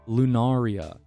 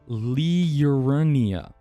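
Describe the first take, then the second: First: There is no 'r' sound before the 'n'. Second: An 'r' sound comes right before the 'n'. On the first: The speaker calls it wrong. "It's not Lunaria at all" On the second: The speaker calls it right. "It's L I U R N I A"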